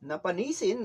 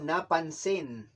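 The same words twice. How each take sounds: First: "Napanisin" with an extra i after the n; mispronounced napansin. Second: Said in the usual way. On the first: Retold or imitated. Teacher echoing the learner's mistake, mispronounced with extra syllable. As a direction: say "Napanisin" in four syllables, questioning. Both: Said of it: "No, napansin".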